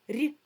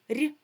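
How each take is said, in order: The two takes are said the same way.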